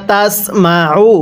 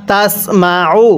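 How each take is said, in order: No difference in how they are said.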